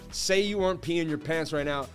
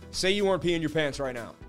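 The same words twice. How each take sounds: The two takes are said the same way.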